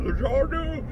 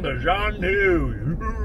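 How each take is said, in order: First: Higher, exaggerated mocking Zhanu. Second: Drawn-out mock pronunciation of Zhanu; mock the name slowly. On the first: Bubba mocks the doctor's word again, higher. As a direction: sneer the name again. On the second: Bubba mocks the doctor's word, slowly drawing out Zhanu. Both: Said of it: "Are you mocking Zorth".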